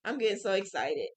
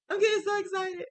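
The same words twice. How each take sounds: First: Said in the usual way. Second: Much higher, a bit louder gush of excitement; excited squeal. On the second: Real, not acted. Crafter telling viewers about her rug plan, squealing with excitement. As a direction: let the excitement burst out in a high squeal.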